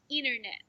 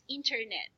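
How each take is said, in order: First: The T sound after the n is dropped. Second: The T sound after the n is clearly pronounced. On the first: This is how Americans say it. "they don't pronounce T" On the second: This is how the speaker's own group says it. "for us we pronounce it as"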